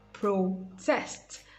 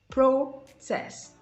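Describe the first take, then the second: First: The stress is on the second syllable. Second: The stress is on the first syllable. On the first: It is used as a verb. "That's the verb" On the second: It is used as a noun. "The first syllable is stressed in the noun"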